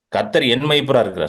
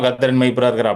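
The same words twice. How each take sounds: First: It is said earnestly, with weight. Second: It is said casually, without weight.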